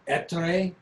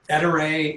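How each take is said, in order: First: The name is said with an Italian accent. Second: The name is said with a plain English accent. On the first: This is how an Italian speaker would say it. "if you have an Italian accent, it would be" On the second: This is how the company says the name. "you can already tell how, how we pronounce it"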